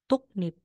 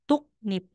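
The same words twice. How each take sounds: First: The middle consonants sound like k followed by n. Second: The same.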